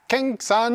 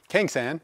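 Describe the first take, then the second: First: Higher-pitched mock Japanese accent; put-on Japanese accent. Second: Said in the usual way. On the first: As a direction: say it with a playful Japanese accent, voice lifted. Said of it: "I said it with the accent". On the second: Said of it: "I don't know why I said it with the accent".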